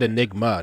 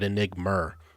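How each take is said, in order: First: The word ends in an open 'ah' vowel. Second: The word ends in an 'er' sound. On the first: The speaker calls it right. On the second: The speaker calls it wrong.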